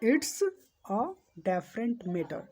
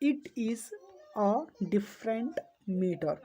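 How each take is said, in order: First: It is contracted to a single syllable, its. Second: It is said in full as two words. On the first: "इसको बोलेंगे इट्स ... इट इज का short है" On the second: "इसका full form इट्स का होता है इट इज"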